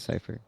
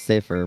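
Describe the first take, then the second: First: The name is said the common American way. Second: The name is said the non-American way. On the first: This is how most Americans say the name. "most Americans say Cypher" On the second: This is how the name is meant to be said. "I think it's pronounced Cypher"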